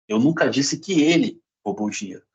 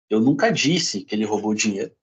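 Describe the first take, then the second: First: The stress falls on the word ele. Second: The stress falls on the word disse. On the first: Someone else may have taken it. "Pode ter sido outra pessoa" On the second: It may have been written, not said. "posso ter escrito"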